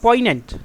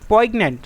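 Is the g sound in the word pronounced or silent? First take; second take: silent; pronounced. First: The g is silent, with no g sound. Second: The g sound is pronounced before the n. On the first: The speaker calls it right. "इसका सही उच्चारण हो जाएगा पॉइनेंट" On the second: The speaker calls it wrong. "ये बिल्कुल ही गलत उच्चारण है"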